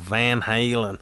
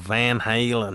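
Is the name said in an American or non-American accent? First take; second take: American; American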